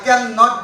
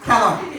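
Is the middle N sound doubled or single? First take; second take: doubled; single. First: The N sound is doubled across two parts. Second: The N sound is single and short. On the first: The speaker calls it wrong. "cannot is a wrong sound" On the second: The speaker calls it right. "the sound will be cannot"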